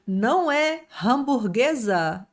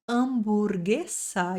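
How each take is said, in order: First: "hamburguesa" with a rasped H at the start; H pronounced. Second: "hamburguesa" slowly with a silent H, starting on the vowel. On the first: Teacher showing the wrong rasped H. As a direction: rasp the H of "hamburguesa". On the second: Teacher showing the right silent H. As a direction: drop the H of "hamburguesa". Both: Shown as a demonstration.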